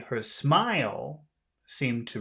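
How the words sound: The word smile carries the stress. "not her clothes, not her hair, not her laugh, but her smile"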